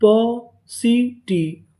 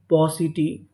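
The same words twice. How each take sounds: First: पॉसिटी drawn out as पॉ, सी, टी; syllable by syllable. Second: Said in the usual way. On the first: Shown as a demonstration. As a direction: sound out पॉसिटी very slowly with clear gaps. (पॉसिटी को खींचकर, टुकड़ों में) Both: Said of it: "तो पूरी meaning क्या बनी".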